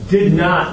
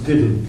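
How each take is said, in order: First: It is said as two full words. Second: It is said as one contracted word. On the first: "Did not becomes didn't" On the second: "Did not becomes didn't"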